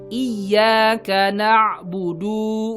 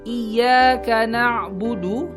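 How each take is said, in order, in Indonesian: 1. Vokal akhirnya dibaca panjang. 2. Vokal akhirnya dibaca pendek.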